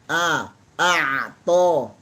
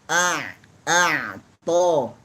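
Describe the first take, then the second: Both takes have the same delivery.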